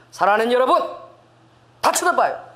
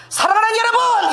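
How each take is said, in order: First: Loud. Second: High loud 사랑하는 여러분 shouted out; nervous shout. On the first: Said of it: "사람들이 저를 다 쳐다보는 거야". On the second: Preacher retelling her first subway sermon, shouted nervously. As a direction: blurt it out far too loud from nerves. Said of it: "얼마나 긴장하고 소리를 크게 내는지". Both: Retold or imitated.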